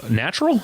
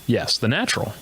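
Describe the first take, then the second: First: NATURAL as a high, rising question; questioning himself. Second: NATURAL confirmed back at usual pitch; answering himself. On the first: Host talking to himself, asking NATURAL with a high rising tune. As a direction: query the word NATURAL, pitched well up. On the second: Host talking to himself, confirming NATURAL at everyday pitch. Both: Pretend. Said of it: "Now I'm talking to myself".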